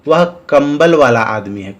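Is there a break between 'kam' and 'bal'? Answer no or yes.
no. 'Kam' and 'bal' run together without a break. The man deals in blankets. "शायद कंबल बेच रहा होगा"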